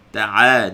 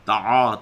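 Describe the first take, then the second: First: The first consonant is light and thin. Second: The first consonant is heavy and thick. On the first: The speaker calls it right. "ta'a nipis" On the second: The speaker calls it wrong. "ta'a tebal"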